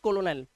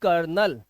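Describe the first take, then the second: First: It is said with three syllables, ko-lo-nel. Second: It is said with two syllables, like kernel. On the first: The speaker calls it wrong. "But it's not कोलोनेल" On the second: The speaker calls it right. "We pronounce this word as कर्नल"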